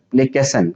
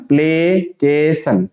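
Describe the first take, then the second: First: Said in the usual way. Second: Slow, stretched "प्लेकेशन"; syllable by syllable. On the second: Shown as a demonstration. Teacher showing students how to read it, slowly in syllables. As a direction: break "प्लेकेशन" into play, kay, san. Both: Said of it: "इसको पढ़ने के लिए".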